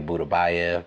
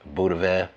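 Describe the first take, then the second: First: The name is said with four syllables. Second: The name is said with three syllables. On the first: The speaker calls it wrong. "I like to say Budabayev" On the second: The speaker calls it right. "the real pronunciation is Budavev"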